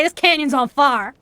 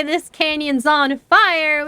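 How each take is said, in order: First: Appalachian speech with fire as "far"; Appalachian accent. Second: Said in the usual way. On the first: Shown as a demonstration. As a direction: demonstrate the Appalachian way, fire rhyming with car. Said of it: "We would say". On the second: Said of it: "we wouldn't say".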